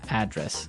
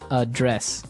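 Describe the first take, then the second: First: The stress is on the first syllable. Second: The stress is on the second syllable.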